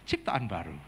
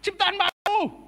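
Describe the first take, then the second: First: It is said as a calm, flat statement. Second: It is said as a surprised exclamation. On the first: It states a settled fact. "definitif sekali" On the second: It expresses amazement at the news. "Kaget ya"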